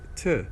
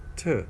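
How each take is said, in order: First: The word has a reduced schwa vowel. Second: The same.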